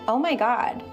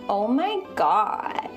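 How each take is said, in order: First: The vowels are short and normal. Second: The vowels are drawn out long.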